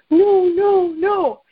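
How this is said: It sounds sad and quiet.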